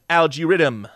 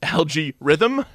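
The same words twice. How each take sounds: First: It is said in a Rastafarian Jamaican accent. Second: It is said in the speaker's plain accent.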